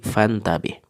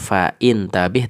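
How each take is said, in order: First: 'Fa' runs straight into 'ntabih' without a stop. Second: A glottal stop and 'i' follow 'fa'. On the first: The speaker calls it right. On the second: The speaker calls it wrong.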